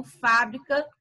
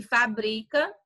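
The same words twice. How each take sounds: First: Fábrica with stress on FÁ; first-syllable stress. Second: Fabrica drawn out on BRI; middle-syllable stress. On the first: Teacher contrasts accented words, stressing FÁ in fábrica. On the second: Teacher contrasts accented words, stressing BRI in fabrica. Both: Shown as a demonstration. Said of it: "é o acento".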